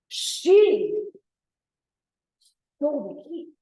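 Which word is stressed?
She. The stress is on she.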